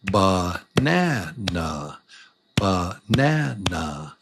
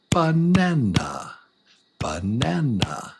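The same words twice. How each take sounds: First: "banana" drawn out slowly, beat by beat; syllable by syllable. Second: Said in the usual way. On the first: Shown as a demonstration. Teacher showing every word is a little song, slow measured "banana". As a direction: stretch each syllable of "banana". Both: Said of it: "every word is a little song".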